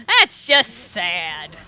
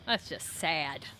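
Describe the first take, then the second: First: Drawn out and very slow. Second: Said in the usual way. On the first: Shown as a demonstration. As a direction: stretch every word out slowly. Repeating the remark slowly.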